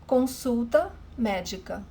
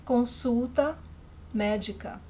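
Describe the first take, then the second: No difference in how they are said.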